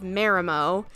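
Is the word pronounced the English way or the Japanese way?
English. The word is pronounced the English way. The speaker calls it wrong. "instead of Marimo"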